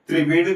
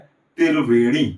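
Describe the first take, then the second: First: The t and r are joined in one cluster. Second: The t and r are split by a vowel.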